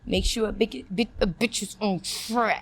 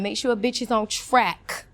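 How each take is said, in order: First: It is spoken through clenched teeth, muffled. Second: It is spoken normally with the mouth open.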